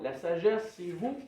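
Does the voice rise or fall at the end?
rise. The voice rises at the end, like a question.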